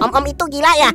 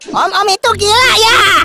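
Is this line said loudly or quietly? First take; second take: quietly; loudly. First: The line is said quietly. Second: The line is said loudly. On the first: The speaker calls it wrong. "jangan pelan-pelan" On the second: The speaker calls it right. "Ayo yang keras sekali lagi"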